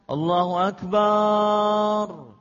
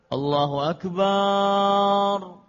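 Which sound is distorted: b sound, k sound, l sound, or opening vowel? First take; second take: b sound; b sound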